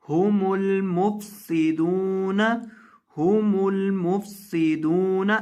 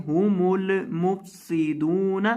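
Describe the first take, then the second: First: हुमुल मुफसिदून with the lam kept still, slow; correct still lam. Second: हुमुल मुफसिदून with the lam shaken; wrong reading. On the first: Teacher models हुमुल मुफसिदून slowly. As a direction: hold the l in हुमुल without bounce. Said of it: "लाम को यहाँ हिलाएंगे नहीं". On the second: Teacher imitates the wrong shaken lam. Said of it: "लाम को हिलाकर पढ़ देते हैं". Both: Shown as a demonstration.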